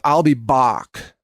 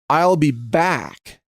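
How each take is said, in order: First: It is said with an Austrian accent. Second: It is said with a plain American accent.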